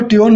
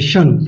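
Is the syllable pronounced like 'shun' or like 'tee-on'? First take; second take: tee-on; shun. First: It is read letter by letter as 'tee-on'. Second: It is pronounced as a single 'shun' sound. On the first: The speaker calls it wrong. "But English में इसको TION नहीं पढ़ते हैं" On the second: The speaker calls it right. "इसको शन पढ़ते हैं"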